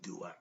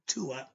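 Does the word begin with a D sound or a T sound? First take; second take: D sound; T sound. First: The word begins with a D sound. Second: The word begins with a T sound. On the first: This is how the word is read from its spelling. "when you read it, you're going to say Duat" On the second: This is how the word was said in ancient Egypt. "the D sound in in Egypt was the T sound. So it's the Tuat"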